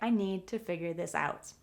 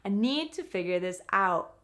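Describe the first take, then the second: First: The sentence is said quickly and smoothly. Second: The sentence is said slowly and carefully.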